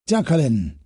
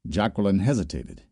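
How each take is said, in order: First: A pleased professor calling her name; Solinsky beaming. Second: Said in the usual way. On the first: Acted. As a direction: greet her name with delight. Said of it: "his face beaming with pleasure".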